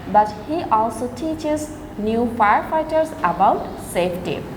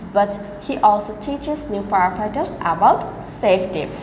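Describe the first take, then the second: No difference in how they are said.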